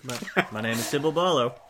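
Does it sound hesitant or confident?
confident. It is said with more confidence.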